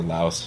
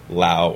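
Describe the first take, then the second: First: "Laos" with its final S sounded. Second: "Laos" said as "Lao", silent final S; Laos without the S. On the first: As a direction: close "Laos" on a clear S, like "louse". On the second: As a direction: drop the S from "Laos", rhyming it with "now". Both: Shown as a demonstration. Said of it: "however you want to pronounce it".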